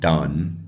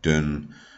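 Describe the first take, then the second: First: The vowel is the open 'uh' sound. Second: The vowel is a short rounded 'u' sound. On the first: "standard English would be uh and and as in done" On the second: "and then you would have an u, an u sound"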